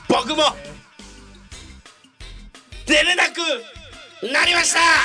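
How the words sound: It is said like a fading echo.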